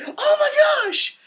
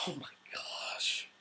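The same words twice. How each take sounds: First: High, loud, drawn-out mock-horror shout; shocked exclamation. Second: Slow, very soft whisper; mortified whisper. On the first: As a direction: shriek it slowly, reenacting your shock. Retells shocked reaction to the Scotsman. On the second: Retold or imitated. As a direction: whisper it slowly in hushed horror. Repeats the shock under his breath.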